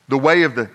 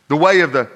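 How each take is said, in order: Both takes have the same delivery.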